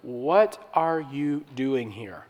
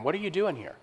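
First: Slow, soft, gentle question; still small voice. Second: Spirit voice. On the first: God asks Elijah softly on the mountain, slow and gentle. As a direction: ask it quietly, like a gentle whisper from God. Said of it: "God speaks, this time audibly". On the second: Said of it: "speaks to him in a spirit man". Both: Retold or imitated.

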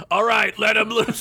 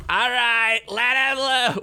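First: Shouting. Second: High shouted command; shouting. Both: Acted. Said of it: "Fred shouted".

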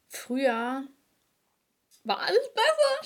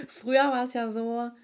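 First: Hohe, laute Spottstimme für früher war alles besser; früher war alles besser übertrieben hoch und laut als Witz; spöttischer Nostalgiker. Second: Said in the usual way. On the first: Pretend. (hoch und laut ironisch nachgeäfft) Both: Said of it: "Spaß".

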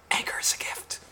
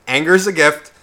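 First: Soft, voiceless whisper into the mic. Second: Said in the usual way. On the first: Retold or imitated. Imitating the singer before the song goes insane, whispered. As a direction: drop to a close whisper. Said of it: "Zach fucking literally just whispers".

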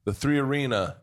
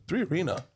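First: Said in the usual way. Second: High, hushed question of disbelief; stunned. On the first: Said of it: "And I said". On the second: Retold or imitated. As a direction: repeat it as if frozen in surprise. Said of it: "like, freezes and he goes".

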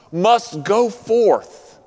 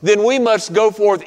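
First: "must go forth" drawn out very slowly, each word weighted; slow right down and lean on "go"; slow emphatic repeat. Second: Said in the usual way. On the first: Acted. Preacher repeats the call emphatically.

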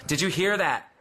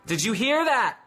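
First: Said in the usual way. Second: Excited. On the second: Acted. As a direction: rouse the congregation with it. Repeats question, second far stronger.

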